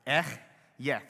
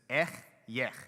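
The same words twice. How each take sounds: First: Louder throaty "Ech yech"; throaty Hebrew. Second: "Ech yech" with a rasping ch from the back of the throat; throaty Hebrew "Ech yech"; Hebrew guttural. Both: Shown as a demonstration. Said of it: "You gotta get it in the back of your throat".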